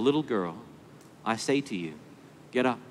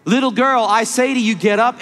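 First: Soft and low, a tender wake-up; quiet, gentle voice to a sleeping child; ever so gentle. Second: Higher, louder, ringing command; a preacher's powerful raising cry; commanding call. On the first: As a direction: coax her gently awake. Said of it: "a voice that must have been ever so gentle". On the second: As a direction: call her up with full authority. Jesus commands the dead girl. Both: Acted.

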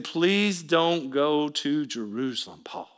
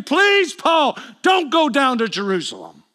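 First: Soft, slow, low plea; imitating grief-stricken begging, understated; tearful pleading. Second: High plea peaking on "Please", then dropping; acted desperate appeal; impassioned begging. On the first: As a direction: plead quietly and heavily, without real sobs. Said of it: "crying and sobbing". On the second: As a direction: beg him in a raised, high voice. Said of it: "and I begged him".

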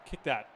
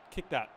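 Both takes have the same delivery.

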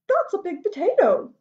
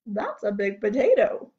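First: High-pitched wife's voice; farmer's wife. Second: Low-pitched farmer's voice. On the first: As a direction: lift the pitch to play the wife. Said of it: "said the wife". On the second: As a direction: drop the pitch to play the farmer. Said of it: "said the farmer". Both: Acted.

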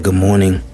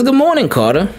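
First: Said in the usual way. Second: High, bright teacher greeting; cheery teacher. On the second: Retold or imitated. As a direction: greet the child like a sunny teacher. Teacher greets son on camera.

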